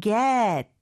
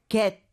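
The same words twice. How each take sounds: First: "get" with a fuller, stretched English vowel; native-style get. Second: "get" as a short, simple Korean-style syllable; flat Korean-style get. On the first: Teacher modelling native speech, English-style "get". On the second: Teacher showing what to avoid, simple "get". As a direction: say "get" plainly, without English glide. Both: Shown as a demonstration. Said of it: "단순히 get이 아니고요".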